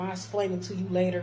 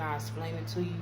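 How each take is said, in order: First: Louder, dismissive mock supervisor; demanding. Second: Even, considerate reassurance; reasonable request. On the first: Supervisor putting off her worker, demanding. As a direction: put them off firmly, imitating a demanding boss. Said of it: "she was just demanding". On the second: Shown as a demonstration. Supervisor kindly putting off worker's question, reasonable. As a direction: offer it politely and calmly. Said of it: "it's how you say it".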